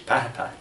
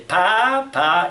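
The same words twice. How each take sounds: First: "papa" short, in the usual pitch; Spanish stress on papa. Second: "papa" high, loud and stretched, rising; wrongly accented papa. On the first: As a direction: say "papa" quickly the Spanish way, without stretching. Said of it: "But in, in Spanish". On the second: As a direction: exaggerate the accent on "papa", dragging it upward. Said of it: "We don't say". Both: Shown as a demonstration.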